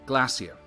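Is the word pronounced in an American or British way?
British. The word is said with a British pronunciation. "in Europe, especially in England, you say"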